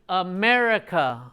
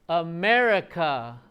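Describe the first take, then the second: Both takes have the same delivery.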